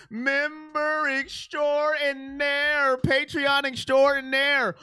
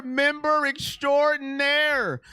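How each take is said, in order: First: Very slow, lightly put-on announcer voice on "Member extraordinaire"; hammed-up announcer. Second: Said in the usual way. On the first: Shown as a demonstration. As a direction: draw out "extraordinaire" like a ring announcer.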